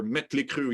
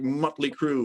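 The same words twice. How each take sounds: First: the band name with a fronted "ö", like "metley"; umlaut pronunciation. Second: the band name without umlaut sounds; plain English-style pronunciation. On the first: Founder jokes about band umlauts, the band name said with fronted vowel. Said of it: "added all these umlauts to their name". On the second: Founder compares the brand to a band, the band name said English-style. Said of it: "It depends on how you wanna say it". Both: Shown as a demonstration.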